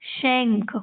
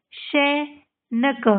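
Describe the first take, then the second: First: Said in the usual way. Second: शैनक very slowly as she, pause, nka; sounded out. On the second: Shown as a demonstration. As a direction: break शैनक into separate parts. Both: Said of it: "आपको इनको पढ़ना है".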